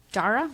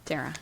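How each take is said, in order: First: Dara said "DAR-uh", questioning; unsure pronunciation. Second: Dara said "DAIR-uh"; corrected pronunciation. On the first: Real, not acted. Host unsure how to say her name, Dara as "DAR-uh". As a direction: say Dara with an open "ah" first vowel, as a question. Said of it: "not knowing her, how to say her name". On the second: Shown as a demonstration. Host trying the corrected name, Dara as "DAIR-uh". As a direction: repeat Dara with "air" in the first syllable. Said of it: "but I think it is Dara".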